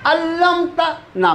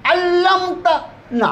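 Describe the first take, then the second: Both takes have the same delivery.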